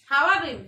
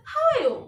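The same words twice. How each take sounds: First: Said in the usual way. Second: "how are you" pitched high, falling at the end; model intonation of "how are you". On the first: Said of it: "how are you বলতে পারি". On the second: Shown as a demonstration. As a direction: say "how are you" with a lifted, expressive tune. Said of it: "এভাবে উচ্চারণটা এভাবে করতে হবে".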